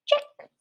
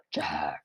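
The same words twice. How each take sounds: First: Tiny, squeaky mouse; little mouse voice. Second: Very low, rough monster growl. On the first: Teacher leading students in checking step one, in a little mouse voice. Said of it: "say check in your best little mouse voice". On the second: Teacher leading students in checking their work, in a monster voice. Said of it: "say check in your best monster voice". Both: Pretend.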